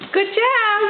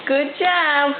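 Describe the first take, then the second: First: High praise. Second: Said in the usual way. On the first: Real, not acted. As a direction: praise her up high and bright. Praising baby's steps.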